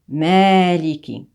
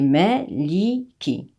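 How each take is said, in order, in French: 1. La première voyelle est tenue longue. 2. La première voyelle reste brève. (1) "On a un allongement sur le ma" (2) "Mais ici, pour la lecture de Warsh, c'est maliki"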